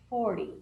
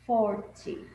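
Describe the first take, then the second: First: The t sounds soft, almost like an r. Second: The t is a clear, crisp t sound. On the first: "um sonzinho meio de R" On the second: "Eu falei agora certinho, só para vocês perceberem o som do T Y"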